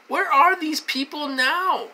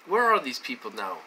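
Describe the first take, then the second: First: Loud demand. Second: Said in the usual way. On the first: Real, not acted. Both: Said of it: "get on a rant and get loud".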